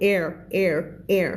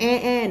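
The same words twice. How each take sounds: First: "air" with a clear final R; "air" said with its R pronounced; R sounded. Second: "air" cut to a bare vowel, no R; wrong pronunciation. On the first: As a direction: curl into the R at the end of "air". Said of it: "มี r ด้วย". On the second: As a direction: air without its R. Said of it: "ไม่พูด air ใช่ไหม". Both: Shown as a demonstration.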